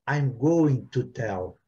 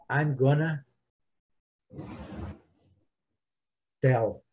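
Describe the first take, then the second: First: Going to is said in full. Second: Going to is reduced to gonna. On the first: "eles não falam I'm going to tell" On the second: "Eles falam I gonna"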